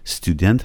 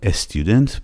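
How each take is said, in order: First: The word begins directly with the s sound. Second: An extra vowel is added before the s. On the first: The speaker calls it right. "تلفظش student هستش" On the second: The speaker calls it wrong. "دوستان ممکنه گاهی وقتا بگن استیودنت به خاطر اینکه نمیتونن سر و کلمه رو ابتدا به ساکن با س شروع بکنن"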